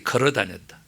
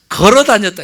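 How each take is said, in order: First: 걸어 다녔다 leaned on 걸어, softer and lower; 걸어 dwelt on quietly for effect; stressed 걸어 softly. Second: Said in the usual way. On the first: Shown as a demonstration. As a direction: linger on 걸어 in a soft low voice. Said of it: "이렇게". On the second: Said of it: "이렇게 걸어 다녔다".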